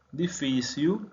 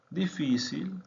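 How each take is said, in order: First: Portuguese "Difícil", final l turned to u; Portuguese pronunciation. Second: Said in the usual way. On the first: Shown as a demonstration. Teacher contrasts Portuguese with Spanish for learners, l as u. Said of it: "Difícil /difisiu/ vs /difisil/". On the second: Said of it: "Difícil /difisil/".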